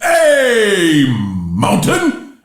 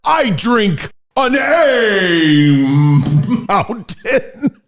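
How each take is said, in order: First: Drawn-out yell. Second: First try. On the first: Host retrying his beer toast as a long slow yell. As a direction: bellow it like a toast. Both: Shown as a demonstration. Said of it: "Let me try that again".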